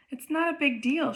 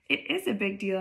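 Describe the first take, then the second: First: A touch defensive, pitched higher; mildly defensive. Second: "is" insisted on in a level, usual-pitched voice; firm contradiction. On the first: Olivia answering Justin about an old friend, mildly defensive. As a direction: brush it off defensively, voice lifted. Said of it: "she answers defensively". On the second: Justin annoyed at Olivia, firm contradiction on "is". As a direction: counter firmly on "is", without raising the voice. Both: A narrator's reading.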